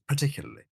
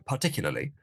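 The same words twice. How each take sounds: First: The word is pronounced loosely, with sounds reduced. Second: The word is pronounced carefully, every sound clear. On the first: It sounds ordinary. "The normal way of pronouncing particularly" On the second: It sounds highbrow and correct. "could go a bit more precise, and that sounds highbrow and correct"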